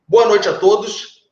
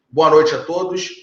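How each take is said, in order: First: It is said with lively intensity. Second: It is said flatly, without intensity.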